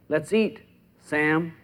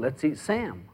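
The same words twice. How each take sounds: First: There is a pause before Sam. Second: It runs on with no pause before Sam.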